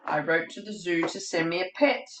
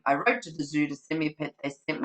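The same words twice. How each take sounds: First: Said in the usual way. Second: Fast, skimming repeat; rattled off quickly. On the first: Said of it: "it keeps going". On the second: Shown as a demonstration. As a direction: rush through the familiar line. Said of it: "it keeps going, keeps going".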